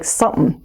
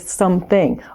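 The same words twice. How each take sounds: First: The word is shortened, with its ending clipped. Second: The word is said fully, with every sound. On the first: The speaker calls it wrong. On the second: The speaker calls it right.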